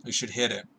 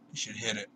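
First: Said in the usual way. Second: Softer repeat. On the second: Retold or imitated. Buddy repeating advice at blackjack, softer. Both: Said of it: "And Buddy is like".

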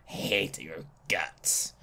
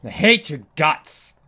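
First: Much lower, softer and slow, a dark mutter; low muttered grudge. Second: Said in the usual way. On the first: Real, not acted. Gamer muttering at the monster, low and slow.

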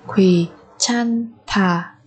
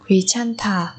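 First: Very slow "Quý chan thả"; syllable by syllable. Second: Said in the usual way. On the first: Shown as a demonstration. Teacher modelling a word for learners, very slowly.

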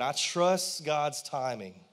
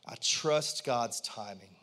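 First: Slow and firmer, leaning on trust; stronger repeat. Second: Slow, lower modelling line for the crowd to echo; a low, deliberate prompt for the congregation to repeat; slow lead-in. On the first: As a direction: say it again with more conviction. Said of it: "Come on, say that". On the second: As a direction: say it slowly so they can follow. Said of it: "I want everyone to say out loud". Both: Shown as a demonstration.

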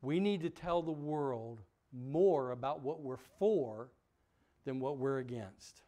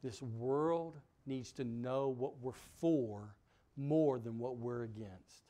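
First: Slower, pressing it home; emphatic repeat. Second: Slow, weighty, deliberate words; slow emphatic. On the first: Preacher repeating for the church, stressing "for". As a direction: repeat it so nobody misses "for". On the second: Preacher stressing the point slowly, weighty and deliberate. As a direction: lay each word down for the church. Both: Shown as a demonstration. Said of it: "y'all didn't hear that part".

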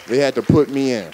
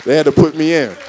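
First: Said in the usual way. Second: Proud louder declaration; triumphant repeat. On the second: Real, not acted. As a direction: announce it with pride, louder.

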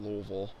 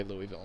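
First: "Louisville" squashed into two syllables; Louisville as "Luhvul". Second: "Louisville" with a clear ee in the middle; Louisville as "Looey-ville". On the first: Dropping the local form for the video, "Louisville" said LUH-vul. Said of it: "instead of Louisville". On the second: Setting the rule for the video, "Louisville" said LOO-ee-vil. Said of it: "we will say Louisville instead of Louisville". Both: Shown as a demonstration.

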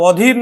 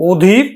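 First: অধীর as "aw-dheer"; open initial vowel. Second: অধীর as "o-dheer", the name; rounded o starting অধীর; closed initial o. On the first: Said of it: "অ এর মতোই উচ্চারণ হবে". (অধীর-এর অ বিবৃত উচ্চারণ) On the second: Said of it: "তখন কিন্তু সংবৃত উচ্চারণ হবে". (অধীর-কে "ওধীর" উচ্চারণ) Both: Shown as a demonstration.

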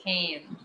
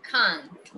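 First: "Can" short, no T; positive can. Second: "Can't" ending on a clear T. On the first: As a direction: say "Can" clipped with no T. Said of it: "¿Cómo debo decir esto?". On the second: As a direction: land the final T of "Can't". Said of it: "Con la T". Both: Shown as a demonstration.

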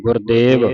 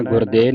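First: ਗੁਰਦੇਵ with a fully sounded final v, louder; full final v. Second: ਗੁਰਦੇਵ with the final v dropped; wrong dropped ending. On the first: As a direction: pronounce the closing v of ਗੁਰਦੇਵ completely. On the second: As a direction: say ਗੁਰਦੇਵ as "gurde", no v at the end. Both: Shown as a demonstration. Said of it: "ਵਾਹ ਵਾਹ ਪੂਰਾ ਬੋਲ ਕੇ".

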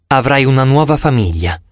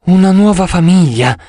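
First: Said in the usual way. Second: Higher, louder, lingering dreamy echo. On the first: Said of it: "ripeté Bianca". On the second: Acted. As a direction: savour "nuova" as if dreaming. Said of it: "con voce sognante".

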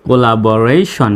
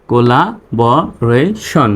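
First: Said in the usual way. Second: Very slow "collaboration", a gap after each syllable; teacher's slow sounding-out. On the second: Shown as a demonstration. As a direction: break "collaboration" into co-la-bo-ra-shon. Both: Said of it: "reading পড়ে আসি".

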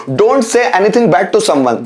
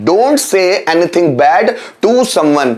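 First: Said in the usual way. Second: Slowly, word by word; slow repeat. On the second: Shown as a demonstration. Teacher repeating an English translation for learners, slowly. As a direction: spell it out at a slow, measured pace.

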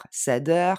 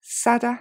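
First: SADDER with a full French "eur" ending; French-style -er. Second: SADDER stressed on SAD, ending in a very short "uh"; short final schwa. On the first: Teacher showing learners the mistake to avoid, SADDER with a French "-eur". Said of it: "Je dis pas". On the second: Teacher modelling the right ending, SADDER as "SAD-uh". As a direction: punch the first syllable of SADDER, barely sound the -er, no R. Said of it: "c'est un son E et il est très court". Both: Shown as a demonstration.

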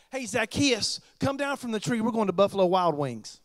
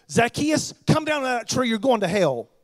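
First: Casual, friendly call up to a friend; friendly invitation. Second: Loud stern call, scolding from below the tree; harsh condemning call. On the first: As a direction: invite him down like an old buddy. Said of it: "Here's what he said". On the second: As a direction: bark it out like a harsh preacher condemning him. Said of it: "Not a-, not at all". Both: Shown as a demonstration.

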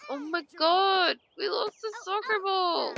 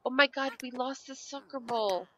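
First: High, whiny mock crying; mock lament. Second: Said in the usual way. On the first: Gamer laments the lost soccer ball, high mock-tearful whine.

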